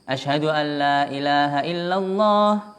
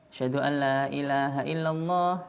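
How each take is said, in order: First: The phrase is said in a loud voice. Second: The phrase is said in a soft voice. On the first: "Ulangi lagi yang keras" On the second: "Kemudian setelah itu lirih suaranya"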